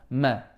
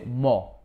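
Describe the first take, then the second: First: The vowel is light and flat, sounding like 'ma'. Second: The vowel is dark and heavy, sounding like 'mo'. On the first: The speaker calls it right. "Flat. The meme is flat" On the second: The speaker calls it wrong. "Don't say mo"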